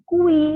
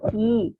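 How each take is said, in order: First: A 'u' sound is heard after the k. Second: No 'u' sound is heard after the k. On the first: The speaker calls it wrong. "kita tidak menyanyikan kui, kan tidak gitu kan?" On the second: The speaker calls it right. "U-nya tidak dilafalkan. Kita hanya membaca huruf I-nya saja"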